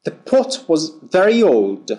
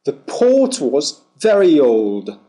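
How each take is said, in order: First: "pot" with a short clipped British o. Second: "port" with a long aw vowel, no r sound. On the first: Teacher contrasting "pot" with port in a phonetics lesson, short o. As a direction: keep "pot" short and open. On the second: Teacher contrasting "port" with pot in a phonetics lesson, long aw. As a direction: draw out the aw in "port". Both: Shown as a demonstration. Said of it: "Feel the difference".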